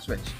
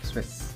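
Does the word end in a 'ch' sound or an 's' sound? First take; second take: ch sound; s sound. First: The word ends with a 'ch' sound. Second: The word ends with a hissing 's' sound. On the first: The speaker calls it wrong. "Not switch" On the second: The speaker calls it right.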